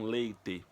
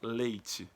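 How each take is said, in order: First: It is said with a European Portuguese accent. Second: It is said with a Brazilian Portuguese accent.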